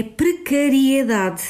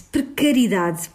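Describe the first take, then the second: First: Precariedade with "ri-e" clearly sounded; correct pronunciation. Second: Precariedade said as "precaridade", the I-E blended away; wrong pronunciation. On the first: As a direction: say precariedade, every syllable of "ri-e-da" clear. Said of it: "A pronúncia correta é precariedade". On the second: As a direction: say precariedade dropping the E after "ri". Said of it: "Outro erro fonético muito frequente". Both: Shown as a demonstration.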